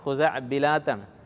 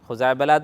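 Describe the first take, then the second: First: The vowel after the b sound is i. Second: The vowel after the b sound is a. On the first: This is the proper form of the word. The speaker calls it right. "ശരിക്കുള്ള pronunciation" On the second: This is how people commonly say it. The speaker calls it wrong. "സാധാരണ ആൾക്കാർ പറയൽ"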